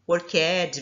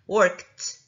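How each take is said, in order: First: The ending is an extra syllable. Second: The ending is a plain T sound. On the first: The speaker calls it wrong. "E não falando esse worked ... Não é assim" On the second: The speaker calls it right. "olha o som do T no final, como se fosse um T"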